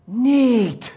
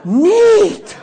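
First: Awestruck. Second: Much higher and louder with a laugh; the dazed young man, overjoyed, exclaims neat through a laugh; awestruck. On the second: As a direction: burst out in dazed delight. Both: Retold or imitated. Awestruck man after prayer.

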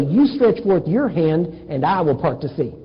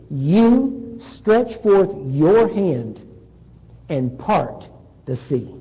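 First: Quicker run with "I will part the sea" as God's part; contrasted misquote. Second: Very slow, YOU and YOUR drawn out, dropping on "part the sea"; stress on You. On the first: Preacher shows what God did not say, contrasting "I" with "You". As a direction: set "I" against "You" in one unbroken sentence. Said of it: "He did not say". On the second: God tells Moses to part the sea, slow stress on "You". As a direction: lean on "You", spacing each phrase. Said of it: "exactly the way it's written". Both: Shown as a demonstration.

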